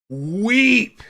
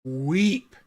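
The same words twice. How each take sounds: First: Much louder and higher, belted out; emphatic cry. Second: Said in the usual way. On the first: Shown as a demonstration. Repeating to viewers that it made her weep, loud and emphatic. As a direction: shout the word for emphasis.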